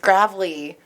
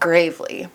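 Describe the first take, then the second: First: The name begins like the word gravel. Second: The name begins like the word grave. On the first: The speaker calls it right. "and it's Gravely, like gravel" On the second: The speaker calls it wrong. "not Gravely"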